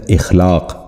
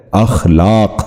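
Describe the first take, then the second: First: اخلاق wrongly opened with an "i", ikh-laaq; mispronunciation. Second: اخلاق opening on a short "a": akh-laaq; correct pronunciation. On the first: Teacher showing viewers the common error, اخلاق mispronounced as ikh-laaq. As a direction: say اخلاق with "i" instead of "a" at the start. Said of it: "جو غلط تلفظ ہے". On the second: Teacher modelling for viewers the correct اخلاق, akh-laaq. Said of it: "درست تلفظ ہے". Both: Shown as a demonstration.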